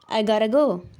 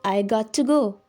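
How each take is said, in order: First: 'Got to' is reduced to 'gotta' with a da sound. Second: 'Got to' is said fully as two words. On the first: "I'm saying I gotta go. I'm almost saying with a da sound" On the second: "I'm not saying I got to go"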